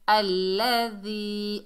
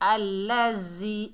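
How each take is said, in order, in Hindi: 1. 'dh' की आवाज़ नरमी से अदा की जाती है। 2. 'dh' की आवाज़ सख़्ती से अदा की जाती है। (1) "जाल को नरमी से अदा करेंगे" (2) "जाल को सख्ती से अदा नहीं करना। अल्लज़ी अल्लज़ी ऐसे नहीं पढ़ना"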